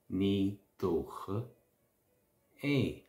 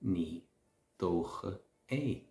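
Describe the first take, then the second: First: Slow repeat. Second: Said in the usual way. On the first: Shown as a demonstration. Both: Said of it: "if you're answering a question".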